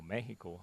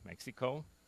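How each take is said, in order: First: It is pronounced with Spanish sounds. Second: It is pronounced with English sounds.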